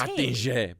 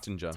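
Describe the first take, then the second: First: The name is said with a French-style pronunciation. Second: The name is said with a plain English pronunciation.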